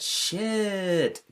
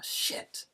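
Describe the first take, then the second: First: The pitch rises at the end. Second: The pitch falls at the end. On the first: Something good happened. "with kind of rising intonation to show whether something's good" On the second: Something bad happened.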